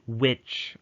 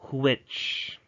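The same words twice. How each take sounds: First: The w is said without a breathy h. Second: The w is preceded by a breathy h. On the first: The speaker calls it wrong. "you should not say which" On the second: The speaker calls it right. "rather you should say which. Because if you remove the H"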